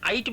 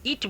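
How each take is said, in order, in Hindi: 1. स्वर एक लंबी 'eye' ध्वनि है। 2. स्वर एक छोटी 'i' ध्वनि है। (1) "आइट बोलते हैं क्या" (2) "इट बोलते हैं"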